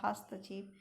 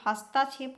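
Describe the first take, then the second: First: हस्तक्षेप with a short "t" cluster, no long vowel; quiet correct हस्तक्षेप; correct short form. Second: हस्ताक्षेप with a long "taa" in the middle; wrong form हस्ताक्षेप, fast, with "taa"; wrong extra aa. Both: Shown as a demonstration. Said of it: "हस्ताक्षेप नहीं होता".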